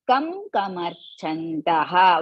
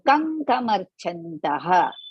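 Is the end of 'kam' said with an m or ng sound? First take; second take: m; ng. First: The first word ends with a plain m sound. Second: The m becomes an ng sound before k. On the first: The words are read separately, as when splitting them. "While you are splitting, you are going to read like that" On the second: The words are joined as in recitation. "go to the Ka Varga and see the Anunasika"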